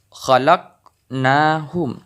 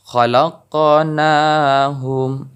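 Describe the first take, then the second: First: "khalaqnahum" with the q closed silently; wrong way, no bounce. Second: Slow "khalaqnahum" with an audible qaf rebound; bounced qaf. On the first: Teacher showing the wrong reading, flat qaf. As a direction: say "khalaqnahum" with a stopped, unechoed qaf. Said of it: "bukan khalaqnahum". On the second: Teacher showing the right reading, bounced qaf. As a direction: echo the q in "khalaqnahum", slowly. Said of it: "harus terdengar pantulan". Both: Shown as a demonstration.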